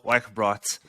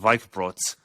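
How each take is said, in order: First: The name is said in an English accent. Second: The name is said in a German accent.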